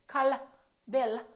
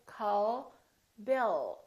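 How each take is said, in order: First: The final L is short and released. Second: The final L is soft and held long. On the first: The speaker calls it wrong. "the American L isn't released. So we don't say la. We don't say" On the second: The speaker calls it right. "We say call Bill. So the tongue is relaxed ... and it stays there"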